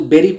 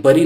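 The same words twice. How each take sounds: First: BURY said just like "berry"; BURY as "BEH-ree"; correct pronunciation. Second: BURY with an "uh" first vowel, "BUH-ree"; wrong pronunciation. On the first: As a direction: say BURY with an "eh" first vowel. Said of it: "उसको bury पढ़ते हैं". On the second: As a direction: mispronounce BURY as "burr-ee". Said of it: "bury नहीं पढ़ते". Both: Shown as a demonstration.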